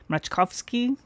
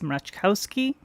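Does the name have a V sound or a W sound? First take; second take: V sound; W sound. First: The name is said with a V sound. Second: The name is said with a W sound. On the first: The speaker calls it right. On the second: The speaker calls it wrong.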